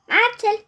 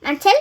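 First: Higher, drawn-out call; insistent call. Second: Short, loud questioning call. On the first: Calls Marcel a second time, higher drawn-out call. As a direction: stretch the name upward to summon him. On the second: Calls Marcel to say it is bedtime, short loud call. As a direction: call the name briskly, with a rising end. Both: Acted.

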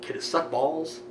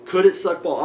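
First: Said in the usual way. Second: Louder anxious repeat. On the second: Retold or imitated. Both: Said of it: "I'm so nervous".

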